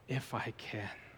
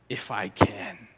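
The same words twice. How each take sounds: First: It is said in a disappointed tone. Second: It is said in a snarky, mocking tone. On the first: The doubt is a letdown. "Is he disappointed?" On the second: The ability is obviously not in question. "You could go snarky"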